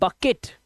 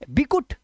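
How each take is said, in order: First: The first vowel is an 'uh' sound. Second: The first vowel is an 'ee' sound. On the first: The speaker calls it right. "इसे पढ़ते हैं बकेट" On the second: The speaker calls it wrong. "इसे पढ़ेंगे बिकुट नहीं"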